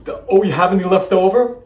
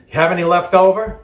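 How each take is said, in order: First: Hammed-up cutesy host question; cute cooking show host. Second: Cute cooking show host. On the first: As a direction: ask sweetly like a TV cook. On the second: Retold or imitated. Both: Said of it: "what they say in the cooking shows to be cute".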